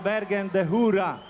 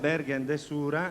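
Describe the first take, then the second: First: The last word begins with an h sound. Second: The last word begins with an s sound. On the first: This is how it is said in a nearby town. "anche solo a Seriate dicono" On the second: This is how it is said in the city. "normalmente danno in città"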